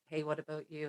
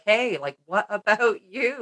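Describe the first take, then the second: First: The words are said softly and quietly. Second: The words are said loudly and forcefully. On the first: The inner call is only a gentle hint. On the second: The inner call has become insistent.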